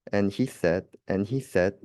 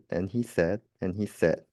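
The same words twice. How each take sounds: The two takes are said the same way.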